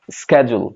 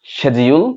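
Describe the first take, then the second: First: 'schedule' as SKED-jul, falling; American hard k in 'schedule'; American pronunciation. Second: 'schedule' as SHED-jee-ul, rising at the end; British sh sound in 'schedule'; British pronunciation. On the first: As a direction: open 'schedule' with sk. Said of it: "আমেরিকানরা এটাকে বলে". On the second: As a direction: open 'schedule' with sh. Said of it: "British". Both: Shown as a demonstration.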